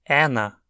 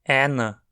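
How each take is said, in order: The two takes are said the same way.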